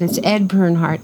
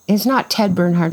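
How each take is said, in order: First: "Ed" picked out against the mistaken name; stress on Ed. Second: "not Ted", the mistaken name picked out; stress on Ted. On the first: Giving the listener the right name, contrastive stress on "Ed". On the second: Correcting the wrong name for the listener, stress on "Ted". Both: Real, not acted.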